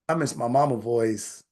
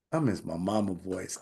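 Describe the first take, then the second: First: Said in the usual way. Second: Drops low and soft, almost to himself; hushed, sad repeat. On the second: Real, not acted. Telling the audience he misses his late mother, hushed and sad. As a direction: let it sink into a near-murmur. Repeats, much softer and lower.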